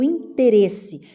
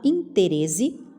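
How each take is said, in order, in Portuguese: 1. A consoante antes do final soa como s. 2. A consoante antes do final soa como z.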